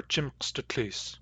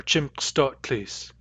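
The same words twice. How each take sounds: First: "chimkstutlis" with a short, unstressed middle vowel; slow "chimkstutlis", short u before tlis; first variant pronunciation. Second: "chimkstutlis" with an open aw vowel before tlis; slow "chimkstutlis", middle vowel opened to aw; alternative pronunciation. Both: Shown as a demonstration. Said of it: "or chimkstutlis".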